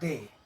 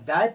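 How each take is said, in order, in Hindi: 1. स्वर 'day' शब्द में 'ay' जैसा बोला जाता है। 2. स्वर 'buy' शब्द में 'eye' जैसा बोला जाता है। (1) "इस शब्द को हम पढ़ेंगे दे" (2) "डाई पढ़ते हैं तो क्या होगा, गलत होगा"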